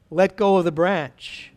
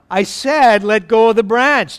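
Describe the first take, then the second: First: Said in the usual way. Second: Louder, insistent command; firm repeat. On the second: Acted. Lord telling Jack to let go of the branch, firm insistence. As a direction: repeat the order with more force. God repeats the instruction firmly.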